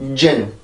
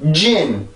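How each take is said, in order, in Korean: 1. 이 음절은 공기를 적게 내보내며 가볍게 발음됩니다. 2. 이 음절은 강한 공기 파열과 함께 발음됩니다. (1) "진, 진 이렇게 되지" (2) "공기가 여기 있는 것처럼 나오게 되면 리듬이 하나가 새로 생긴단"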